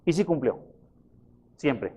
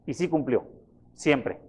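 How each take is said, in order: Both takes have the same delivery.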